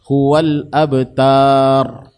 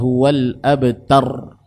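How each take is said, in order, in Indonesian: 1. Vokal dipanjangkan menjadi bunyi yang panjang. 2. Vokal dibaca pendek, tanpa dipanjangkan.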